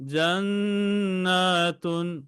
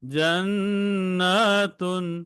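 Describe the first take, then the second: First: The word ends with a full -tun syllable. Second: The word ends with a full -tun syllable.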